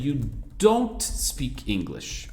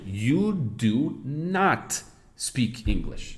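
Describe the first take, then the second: First: The negative is contracted into one word. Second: The negative is said as two full words. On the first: A plain, ordinary negative statement. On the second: It insists that the person really does not speak.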